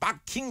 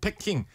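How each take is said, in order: First: The first syllable is a tense 'ppak' sound. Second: The first syllable is a plain 'pae' sound.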